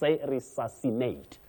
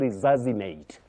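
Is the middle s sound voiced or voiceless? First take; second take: voiceless; voiced. First: The middle s is a hissing, voiceless sound. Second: The middle s is a buzzing, voiced sound. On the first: The speaker calls it right. "say resuscitate or resuscitate, to resuscitate" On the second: The speaker calls it wrong. "when we try to make that voice sound ... Don't say resuscitate"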